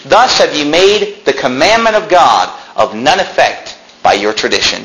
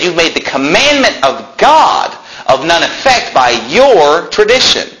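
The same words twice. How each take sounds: First: Slow, weighty scripture reading; slow emphatic reading. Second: Higher, slow, hammering the verse home; raised emphatic repeat. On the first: Preacher reading to the congregation, slow and weighty. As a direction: press each word of the verse slowly. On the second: Preacher repeating the verse to the congregation, slow and raised. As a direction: drive the point home slowly. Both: Shown as a demonstration. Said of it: "Did you hear that?".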